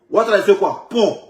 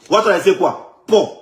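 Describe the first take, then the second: No difference in how they are said.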